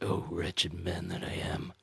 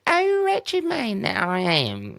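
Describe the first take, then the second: First: It is said in a full, grave, dramatic voice. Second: It is said in a comic Monty Python woman voice.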